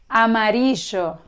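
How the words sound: It is said with an Argentine Spanish accent. "con pronunciación de Argentina"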